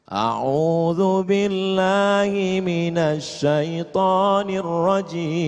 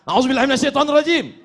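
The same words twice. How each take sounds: First: It is said in a calm tone. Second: It is said in an angry tone.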